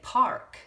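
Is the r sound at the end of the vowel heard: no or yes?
yes. The vowel is followed by an audible r. "That would say park in America"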